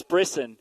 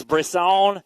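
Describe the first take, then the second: First: "Brisson" said the English way, ending in a short weak "sun"; English Ontario pronunciation. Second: "Brisson" said the French way, ending in a long open "sohn"; French Quebec pronunciation. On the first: Announcer showing how Ontario says the rider's name, English pronunciation. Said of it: "If we're in Ontario". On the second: Announcer showing how Quebec says the rider's name, French pronunciation. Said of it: "If we're in Quebec". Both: Shown as a demonstration.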